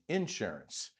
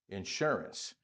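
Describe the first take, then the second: First: The stress is on the first syllable. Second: The stress is on the second syllable. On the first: This is how southerners say it. "And down south, you say ... insurance" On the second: This is how northerners say it. "the accents on the second syllable"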